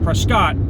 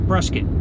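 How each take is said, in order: First: The second syllable does not rhyme with 'biscuit'. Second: The second syllable rhymes with the end of 'Triscuit'. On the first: The speaker calls it wrong. "not Prescott" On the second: The speaker calls it right. "like Triscuit"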